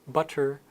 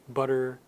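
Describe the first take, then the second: The two takes are said the same way.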